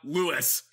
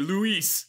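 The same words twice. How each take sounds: First: The stress is on the first syllable. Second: The stress is on the second syllable. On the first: The speaker calls it wrong. "not Luis" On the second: The speaker calls it right. "It would be Luis"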